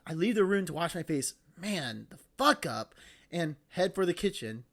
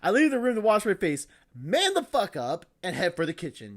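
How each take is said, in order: First: 'Man' is set apart by pauses. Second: 'Man' runs straight into 'the fuck up'.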